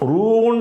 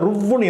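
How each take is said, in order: First: The vowel is stretched long before a single w. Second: The vowel is short and the w is doubled. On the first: The speaker calls it wrong. "ரூ என்று ஒரு நீட்டி சொல்லாமல்" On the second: The speaker calls it right. "ருவ் என்று"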